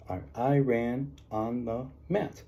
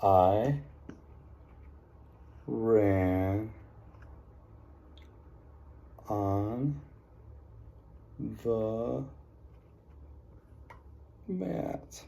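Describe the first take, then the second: First: "I ran on the mat" read slowly as one phrase; slow read-back. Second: Write it out one word at a time; dictating word by word. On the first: Teacher to class, reading the sentence back slowly. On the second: Teacher to class, slow word-by-word dictation. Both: Shown as a demonstration. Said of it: "I saw".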